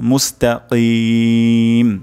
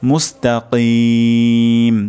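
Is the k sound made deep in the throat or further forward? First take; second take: deep; deep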